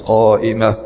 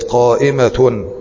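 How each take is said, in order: First: The word ends with an h sound. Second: The word ends with a t sound. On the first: The speaker pauses on this word. "عند الوقف كتبنا الحرف بناء على الوقف عليه" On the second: The word runs on into the next word. "عند الوصل تنطق بالتاء"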